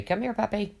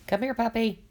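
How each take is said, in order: First: High sweet voice calling a puppy; coaxing puppy call. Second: High sweet call, a little off from own voice; coaxing puppy call. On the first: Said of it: "when I look at a dog and I say". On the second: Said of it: "you know". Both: Retold or imitated.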